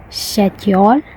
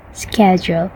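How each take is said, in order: First: Indian "schedule" with no k, rising; Indian accent. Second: American "schedule" with a hard k; American accent. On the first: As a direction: say "schedule" the Indian way, like "shed-yol". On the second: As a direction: say "schedule" the American way, "sked-jool", softly. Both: Shown as a demonstration.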